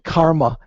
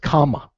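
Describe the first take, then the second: First: An r sound is heard before the m. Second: The r sound is dropped before the m. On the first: This is the Sanskrit form of the word. "Instead of saying karma" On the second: This is the simplified Pali form of the word. "in Pali, it's kama. ... It's like John Kennedy"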